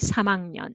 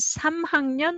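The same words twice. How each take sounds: First: The h sound is weakened in casual speech. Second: The h sound is clearly pronounced.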